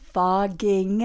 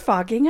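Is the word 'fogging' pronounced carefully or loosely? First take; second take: carefully; loosely. First: The O and G sounds are clearly articulated. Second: The O and G sounds are unclear. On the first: The speaker calls it right. "there it is" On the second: The speaker calls it wrong. "I think you should probably enunciate the O and the G better in that one"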